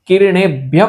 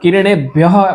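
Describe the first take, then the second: First: The last word ends in a short p-like sound. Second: The last word ends in a long breathy h. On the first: The speaker calls it right. "યહનો થોડોક જ અડધો જ વિસર્ગ આપણે ઉચ્ચારણ કરશું" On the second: The speaker calls it wrong. "અહીંયા વધારે યહ એમ લાંબુ બોલ્યા"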